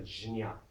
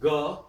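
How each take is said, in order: First: It is said as j followed by nya. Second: It is said as a plain ga. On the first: "ja and ya, jnya" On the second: "Bengalis will say ga"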